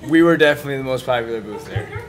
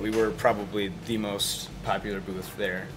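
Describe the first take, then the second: First: It is said with lots of enthusiasm. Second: It is said with little enthusiasm.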